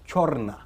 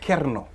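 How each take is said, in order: First: The name begins with a chor sound. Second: The name begins with a ker sound. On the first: This is how one tribe says the name. "they pronounce it as Chorna" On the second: This is how some other people say the name. "some people say Kerno"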